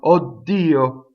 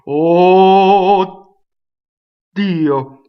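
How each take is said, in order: First: It sounds mildly excited, with shorter sounds. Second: It sounds very excited, with longer vowels. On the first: "I'm mildly excited" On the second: "I'm really excited"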